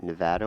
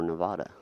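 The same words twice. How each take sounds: First: Nevada with a short "a" as in cat; first pronunciation variant. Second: Nevada with an open "ah" in the middle; second pronunciation variant. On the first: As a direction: say Nevada as nuh-VAD-uh. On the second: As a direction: say Nevada as nuh-VAH-duh. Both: Shown as a demonstration. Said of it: "Is it Nevada or Nevada".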